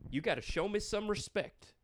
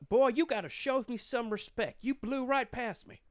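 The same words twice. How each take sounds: First: High-pitched cop imitation at normal volume; stern cop, repeated. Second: High, loud mock-cop scolding; stern Texas cop. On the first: Retelling the cop's demand to friends, high mock-stern voice. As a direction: echo the lawman's scolding, less forcefully. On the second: Texas cop scolding a speeder, high-pitched stern imitation. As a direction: act out an indignant lawman's reprimand.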